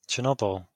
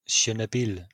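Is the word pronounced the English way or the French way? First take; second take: English; French. First: It is pronounced the plain English way. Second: It is pronounced the French way.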